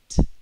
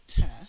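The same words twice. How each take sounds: First: The consonant is said alone without voice. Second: The consonant is followed by a voiced vowel. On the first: The speaker calls it right. "There is no voice" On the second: The speaker calls it wrong. "It's not t"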